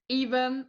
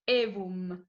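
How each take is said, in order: First: The name is said with English-style pronunciation. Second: The name is said with Italian pronunciation. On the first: "like even or evum is fine" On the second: "in Italian we would say evum"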